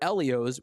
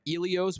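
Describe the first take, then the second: First: The first vowel is a short E sound. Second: The first vowel is a long E sound. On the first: "with a short E" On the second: "with a long E"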